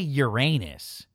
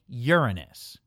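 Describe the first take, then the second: First: The word ends sounding like 'anus'. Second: The word begins sounding like 'urine'. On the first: The speaker calls it wrong. "don't say Uranus" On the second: The speaker calls it right. "say Uranus. Although then you go from anus to urine"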